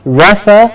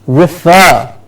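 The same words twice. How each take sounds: First: Refer stressed on the first syllable, "REF-er"; wrong stress. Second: Refer as "ri-FER", stress on the end; last-syllable stress. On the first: Teacher showing the wrong refer, stress up front. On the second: Teacher modelling the right refer, stress on FER. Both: Shown as a demonstration. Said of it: "we said it's not refer".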